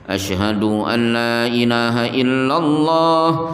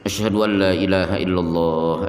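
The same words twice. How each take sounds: First: The phrase is said loudly. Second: The phrase is said quietly. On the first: "diulangi dengan suara keras" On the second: "dibaca di awal pelan"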